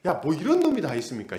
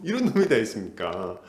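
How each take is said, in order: First: Said in the usual way. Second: 이런 stretched long, 놈 pressed, the whole line lower; stress on 놈. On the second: Shown as a demonstration. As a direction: lean hard on 이런 놈 in disbelief. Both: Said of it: "이게 놈이에요, 놈".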